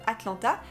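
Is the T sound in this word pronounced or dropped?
pronounced. The T sound is pronounced. "vous n'allez pas dire par exemple Atlanta"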